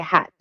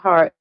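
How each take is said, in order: First: The word is said without an r sound. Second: The word is said with an r sound. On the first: This is how others say it. "They say hat" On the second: This is how the speaker says it. "I would say heart"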